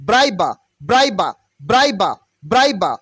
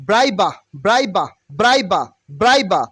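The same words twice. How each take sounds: Both takes have the same delivery.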